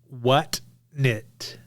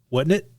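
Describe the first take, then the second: First: The phrase is exaggeratedly over-enunciated. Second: The phrase is said in a normal conversational way. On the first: "that's over enunciated" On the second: "like you might say it in a normal conversation"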